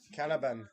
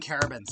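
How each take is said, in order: First: The final S sound is left silent. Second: The final S sound is pronounced. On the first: The speaker calls it right. "You don't pronounce the S, it's French" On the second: The speaker calls it wrong. "got to stop saying Carabins"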